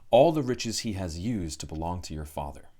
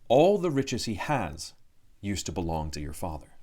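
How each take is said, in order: First: The phrase breaks after 'used'. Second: The phrase breaks after 'has'.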